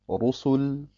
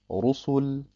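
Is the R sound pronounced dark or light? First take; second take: dark; dark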